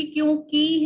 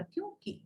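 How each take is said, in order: First: "क्योंकि" with a heavy, long "KEE"; common mispronunciation. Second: "क्योंकि" with a short, light "ki"; "क्योंकि", last vowel barely held; light final syllable. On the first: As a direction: lean loudly on the end of "क्योंकि". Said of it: "आप लोग बोलते ही". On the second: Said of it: "बहुत हल्के से बोला". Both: Shown as a demonstration.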